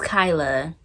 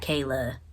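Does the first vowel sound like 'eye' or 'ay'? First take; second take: eye; ay. First: The first vowel sounds like 'eye'. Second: The first vowel sounds like 'ay'. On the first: The speaker calls it right. "My name is Kyla" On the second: The speaker calls it wrong. "not Kayla"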